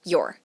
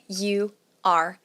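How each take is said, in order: First: It is said as one contracted word, 'your'. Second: It is said as two separate full words. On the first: "dessa forma é pronunciado your" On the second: "que na verdade seria you are"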